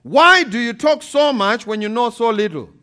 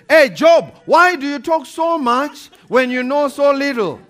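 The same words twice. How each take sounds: First: Reading God's rebuke out with a chuckle, a little raised; amused, laughing through the words. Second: God from the whirlwind, much louder and higher, booming; God's thundering rebuke. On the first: Preacher reads God's words to Job, laughing. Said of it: "This is what God said". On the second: God rebukes Job from the whirlwind, booming loud. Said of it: "when God came out of, in a whirlwind". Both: Acted.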